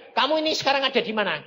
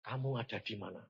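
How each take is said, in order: First: Loud, high, rapid demand; insistent question. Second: Soft, low voice of God; quiet divine question. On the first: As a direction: press the question loudly and fast. God's question repeated insistently. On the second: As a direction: ask it low and hushed. God's question, asked first gently. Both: Retold or imitated.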